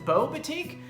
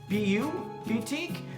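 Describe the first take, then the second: First: The first part is said as one word. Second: The first part is spelled out as two letters. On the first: This is how the name is given online. "I've also read online that it's" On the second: This is how the name looks from its spelling. "It looks like it says it's"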